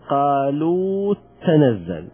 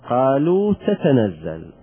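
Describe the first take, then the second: First: The two t sounds merge into one doubled t. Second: Both t sounds are pronounced separately. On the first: "وممكن ندغمها" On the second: "بدون إدغام"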